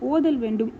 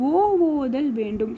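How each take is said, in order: First: The opening vowel has its normal length. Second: The opening vowel is drawn out extra long. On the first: "first இது வந்து ஓதல் வேண்டும் அப்படின்னு இருந்துச்சு" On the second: "அதுக்கப்புறம் தான் இது ஓ ஓதல் வேண்டும்"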